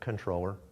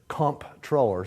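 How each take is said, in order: First: It has an n sound and no p. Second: A hard p sound is heard in it. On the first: "as though it were spelled with an N" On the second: "C O M P, hard P"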